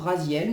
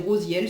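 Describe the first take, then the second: First: The first vowel sounds like 'ah'. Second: The first vowel sounds like 'oh'. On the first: This is the form the speaker habitually uses. "Moi c'est vrai que je dis toujours Raziel" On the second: This is the form the text prescribes. "prononcer Rosiel"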